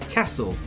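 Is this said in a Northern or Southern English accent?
Northern. It is said in a Northern English accent. "namely the Northern English"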